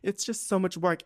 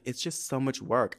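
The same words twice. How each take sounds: First: High-pitched mimicking of a complaint; mocking repeat. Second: Said in the usual way. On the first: Woman mocks her date's complaint about driving, high mocking voice. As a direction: throw his whine back in a raised voice.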